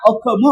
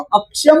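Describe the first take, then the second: First: The middle consonant is said as a plain 'kh'. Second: The middle consonant is said as a 'ksh' cluster. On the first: "त्यामुळे त्या श चा उच्चार ख झालाय" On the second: "अक्षम असा शब्द आहे"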